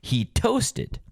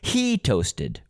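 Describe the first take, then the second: First: The stress falls on the word toasted. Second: The stress falls on the word he. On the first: Toasting is what happened to it. "we can hear the stress" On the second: It was him and not someone else. "we can hear the stress"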